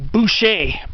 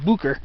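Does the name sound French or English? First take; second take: French; English. First: The name is given a French pronunciation. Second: The name is given a plain English pronunciation. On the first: The speaker calls it wrong. "you'd think the name was French, like Boucher" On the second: The speaker calls it right. "it's actually pronounced Booker"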